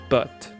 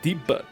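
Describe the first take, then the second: First: The word ends in a clear 't' sound. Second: The word ends in a vowel sound. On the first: The speaker calls it wrong. "Not but" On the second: The speaker calls it right.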